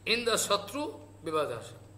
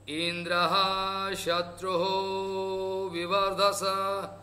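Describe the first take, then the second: First: Indra and Shatru end without any added syllables. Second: Indra and Shatru each get an added syllable. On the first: The enemy of Indra should arise from the fire. The speaker calls it right. "Indra Shatru, who is the enemy of Indra" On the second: Indra becomes the enemy of the figure from the fire. The speaker calls it wrong. "The pronunciation is so wrong"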